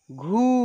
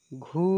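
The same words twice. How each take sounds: First: घू pushed out with a long u; forceful long vowel. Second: घू said lightly and briefly; gentle short vowel. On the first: Teacher showing second of the pair, firmer long घू. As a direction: put more force into a stretched घू. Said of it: "बाद वाले को जोर से बोलेंगे". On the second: Teacher showing first of the pair, gentle short घू. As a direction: ease gently through घू. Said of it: "एक को धीरे से बोलेंगे". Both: Shown as a demonstration.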